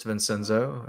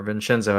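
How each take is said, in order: First: "Vincenzo" with a plain S sound for the C; anglicized pronunciation. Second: "Vincenzo" with a CH sound for the C; Italian-style "Vincenzo", ch in the middle; Italian pronunciation. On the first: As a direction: say "Vincenzo" as vin-SEN-zo. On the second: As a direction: say "Vincenzo" as vin-CHEN-zo. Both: Shown as a demonstration. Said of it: "as I've been told it's correctly pronounced".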